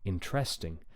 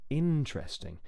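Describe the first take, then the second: First: The stress is not on the first syllable. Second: The stress is on the first syllable. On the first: The speaker calls it wrong. "really commonly mispronounced as interesting" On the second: The speaker calls it right. "we say interesting"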